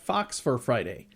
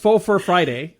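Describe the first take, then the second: First: The first word sounds like 'fox'. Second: The first word sounds like 'foe'.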